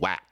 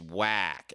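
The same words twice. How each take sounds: First: The word is said short and quick. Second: The word is stretched out long. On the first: The speaker calls it right. "It's like one syllable" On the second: The speaker calls it wrong. "You're making it a three syllable word"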